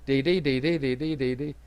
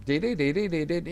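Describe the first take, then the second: First: Imitating teletype beeps. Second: Quick run of sung beeps; imitating teletype tones. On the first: Teacher voicing the two tones so listeners hear them, spaced beeps. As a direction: separate beeps, fading away. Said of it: "so you can clearly hear it". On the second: Teacher imitating the radio signal for the class, rapid beeps. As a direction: hum the signal like a droning machine. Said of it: "When you listen to them". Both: Shown as a demonstration.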